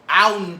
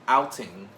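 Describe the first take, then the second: First: The word is said loosely, not fully enunciated. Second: The word is said crisply, every sound enunciated. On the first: The speaker calls it wrong. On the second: The speaker calls it right.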